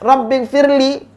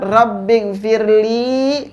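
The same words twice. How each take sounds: First: The final syllable is said quickly and short. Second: The final syllable is drawn out and long. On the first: It only asks for forgiveness, naming no one forgiven. The speaker calls it wrong. "cepat gitu" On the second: It asks for forgiveness for the speaker. The speaker calls it right. "li-nya dipanjangkan"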